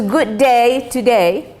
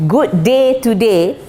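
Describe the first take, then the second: First: "Good day today," with the vowels slanted Australian-style, "day" like "die". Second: "Good day today." said plain and clear, no slant; slanted Australian. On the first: Teacher mimicking the Australian slant for students. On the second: Teacher giving the plain take to students. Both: Shown as a demonstration. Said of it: "they really slant it".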